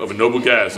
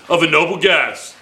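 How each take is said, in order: First: Said in the usual way. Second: Lightly imitated radio announcer; mock on-air voice, raised from an aside; the speaker's radio voice. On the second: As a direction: say it with a touch of radio presenter. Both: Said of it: "That's his radio voice".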